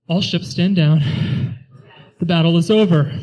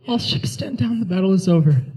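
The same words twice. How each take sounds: First: It is said loudly with forced confidence. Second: It is said quietly in a rasping voice.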